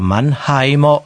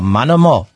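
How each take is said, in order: First: The middle syllable is a full 'heim'. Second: The middle syllable is reduced to 'em'. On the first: "Wir sagen ja auch nicht der Mannheimer" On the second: "Das Heim wird in anderen Dialekten zu M"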